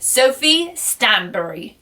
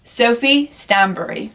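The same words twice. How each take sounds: First: Said in the usual way. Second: "Stanbury" ending "bur-ee", not like "Barry"; corrected pronunciation. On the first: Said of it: "I'll say it in my accent". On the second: Shown as a demonstration. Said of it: "you don't pronounce it like Barry".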